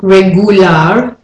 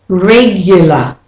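First: Regular said as reg-OO-lar, no y glide; spelling pronunciation. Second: Regular said as REG-yuh-luh; intrusive y. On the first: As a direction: say regular as written, with a pure oo. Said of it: "how it's written". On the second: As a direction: slip a y after the G in regular. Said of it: "the main thing is the y". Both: Shown as a demonstration.

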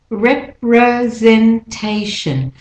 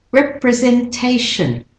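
First: Representation slowly split, clear vowels on REP and TAY; stressed syllables shown. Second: Said in the usual way. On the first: Shown as a demonstration. Teacher showing stressed syllables, representation slow and separated. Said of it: "that's the stressed syllable". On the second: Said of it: "wherever you hear the clear vowel".

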